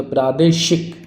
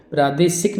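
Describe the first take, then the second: First: प्रादेशिक with sh, "pradeshik"; correct sh sound. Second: प्रादेशिक with plain s, "pradesik"; mistaken s sound. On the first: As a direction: bring out the sh in प्रादेशिक. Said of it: "ये सही है". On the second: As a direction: say प्रादेशिक with s instead of sh. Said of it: "नहीं होता". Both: Shown as a demonstration.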